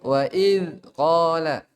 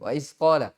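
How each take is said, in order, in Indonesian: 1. Konsonan setelah 'i' adalah th bersuara. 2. Konsonan setelah 'i' adalah s yang mendesis. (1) "padahal apa wa iz iz ya" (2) "berubah jadi apa sin"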